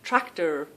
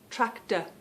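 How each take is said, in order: First: The final R sound is pronounced. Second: The final R sound is dropped. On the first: "This is how I tried to learn that R R sound" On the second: "we lose the R, and we just have that uh sound"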